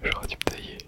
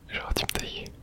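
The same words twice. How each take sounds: The two takes are said the same way.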